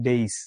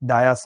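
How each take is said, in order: First: It begins with a 'day' sound. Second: It begins with a 'dye' sound. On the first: The speaker calls it right. "এটা উচ্চারণ হচ্ছে ডেইস" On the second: The speaker calls it wrong. "ডায়াস না"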